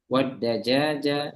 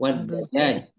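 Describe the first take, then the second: First: The word ends with a final vowel. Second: The final vowel is dropped at the pause.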